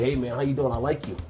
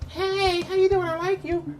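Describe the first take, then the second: First: It is said in a plain, masculine voice. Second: It is said in a flamboyant, exaggerated voice.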